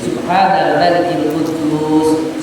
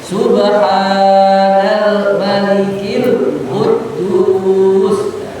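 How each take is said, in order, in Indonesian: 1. Diucapkan dengan panjang dan keras yang biasa. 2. Diucapkan lebih keras, suaranya diangkat dan dipanjangkan.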